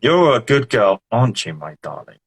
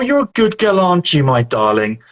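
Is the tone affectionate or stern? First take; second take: stern; affectionate. First: It is said in a stern, warning tone. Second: It is said in a warm, affectionate tone.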